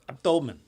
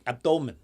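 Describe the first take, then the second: First: The word is said in an imitated foreign accent. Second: The word is said in an imitated foreign accent.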